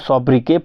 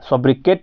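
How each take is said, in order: First: The word ends without a final t sound. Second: The word ends with a clear final t sound. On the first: The speaker calls it right. "इसको सोब्रिके पढ़ते हैं" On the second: The speaker calls it wrong. "सोब्रिकेट नहीं पढ़ते हैं"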